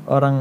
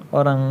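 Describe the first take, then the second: No difference in how they are said.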